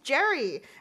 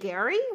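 First: The name begins with a soft J sound. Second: The name begins with a hard G sound. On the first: The speaker calls it wrong. "I just didn't pronounce it correctly" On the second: The speaker calls it right. "His name is actually Gary"

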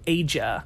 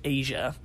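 First: The name does not sound like 'Asia'. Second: The name sounds just like 'Asia'. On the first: The speaker calls it wrong. "I used to always pronounce it as Asia" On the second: The speaker calls it right. "it's just Asia"

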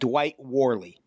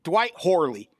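First: The surname begins with a W sound. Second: The surname begins with an H sound. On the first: "I'm cutting that guy a break by not pronouncing it Horley" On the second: "Fuck it"

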